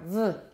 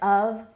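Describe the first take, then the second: First: The word is reduced to a short weak sound. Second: The word is said with a full vowel. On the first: "weak form" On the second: "Strong form is of"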